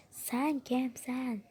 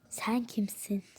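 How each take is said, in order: First: "Sen kimsin" slowly stretched and higher; drawn-out challenge. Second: Said in the usual way. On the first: Acted. Confronting someone before ordering them to sit, drawn-out challenge. Acted challenge repeated more emphatically.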